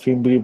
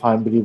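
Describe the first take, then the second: First: The first syllable has a short 'fi' vowel. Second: The first syllable has a long 'fai' vowel. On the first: "কেউ কেউ ফিমব্রি বলে" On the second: "কেউ কেউ ফাইমব্রি বলে"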